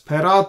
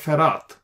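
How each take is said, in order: First: The word begins with a p sound. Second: The word begins with an f sound. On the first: "Here we have the Dagesh, we pronounce as Perat" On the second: "if there is no Dagesh, you pronounce as Ferat"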